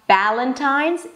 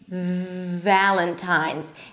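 First: It begins with a B sound. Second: It begins with a V sound. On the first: The speaker calls it wrong. "it's not Valentine's" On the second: The speaker calls it right. "it's Valentine's"

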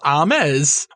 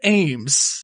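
First: The name is said with two syllables. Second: The name is said with one syllable. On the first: The speaker calls it wrong. "break it up into multiple syllables" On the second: The speaker calls it right. "so I have to say Ames"

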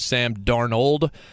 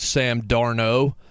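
First: The surname ends with the full 'ld' sound. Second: The surname ends without the final 'ld' sound. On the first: The speaker calls it right. "the man's name is Sam Darnold" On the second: The speaker calls it wrong. "not pronouncing the LD in Sam Darnold's name"

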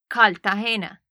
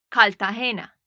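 Both takes have the same delivery.

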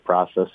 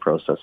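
First: It is said the American way. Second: It is said the Canadian way.

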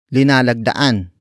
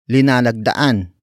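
First: The word begins with the syllable li. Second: The same.

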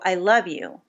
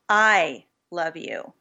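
First: The stress falls on the word love. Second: The stress falls on the word I. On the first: The feeling is love, not just liking. "I don't just like you, I love you" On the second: It is the speaker, rather than somebody else, who loves. "which basically implies that maybe I compared to somebody else"

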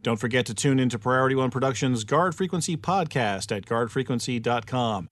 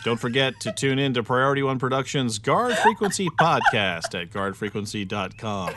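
First: It is read fast. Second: It is read slowly.

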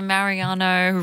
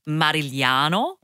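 First: The surname is said in a simplified way. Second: The surname is said the full Italian way. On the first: "I simplify it" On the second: "I'm meant to be saying it as Marigliano"

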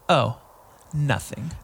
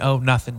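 First: It is said in a sassy, pointed tone. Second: It is said in a plain, sincere tone. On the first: Something is being held back out of annoyance. "I'm not like a sassy lady where I'm like" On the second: There really is nothing more to say. "I mean, "Oh, nothing," never mind"

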